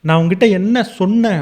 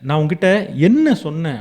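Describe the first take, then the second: First: The stress falls on the word for 'said'. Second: The stress falls on the word for 'what'. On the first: You did not listen to what I said. "நான் உன்கிட்ட சொன்னத நீ காது குடுத்து கேட்கவே இல்ல" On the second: You did something other than what I said. "நான் சொன்னதுக்கு பதிலா நீ வேற எதையோ செஞ்சிருக்க"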